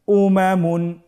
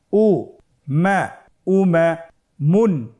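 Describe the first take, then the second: First: Said in the usual way. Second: উমামুন built up slowly; slow syllable reading. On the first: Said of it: "দ্রুত করে পড়ব". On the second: Shown as a demonstration. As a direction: stretch each syllable for learners. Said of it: "ভেঙে ভেঙে পড়তে হয়".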